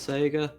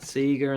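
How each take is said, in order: First: The word is said with an American pronunciation. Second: The word is said with an Australian pronunciation. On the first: "instead of Sega" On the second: "there's some Australianisms that I refuse to let go of, like calling it Sega"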